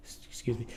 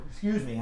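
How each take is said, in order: First: Mid-sneeze. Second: Said in the usual way. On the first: Real, not acted. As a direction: excuse me, half-swallowed by a sneeze. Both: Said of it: "sorry about the sneeze".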